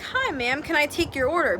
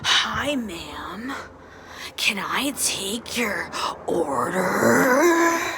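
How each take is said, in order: First: It is said in a plain, normal way. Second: It is said in a weird, distorted way.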